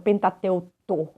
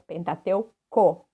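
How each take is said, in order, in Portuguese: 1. A última sílaba começa com som de t. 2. A última sílaba começa com som de k. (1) "e não Pentateuto" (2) "com C O no final"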